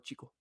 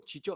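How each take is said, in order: First: The middle consonant is a 'k' sound. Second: The middle consonant is a 'ch' sound. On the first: The speaker calls it right. "I go Chico" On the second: The speaker calls it wrong. "you go Chicho"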